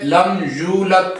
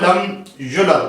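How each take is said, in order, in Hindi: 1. y के बाद का स्वर लंबा है। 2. y के बाद का स्वर छोटा है। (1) "आपने लॉन्ग करना था" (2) "उसको आपने युलद पढ़ दिया"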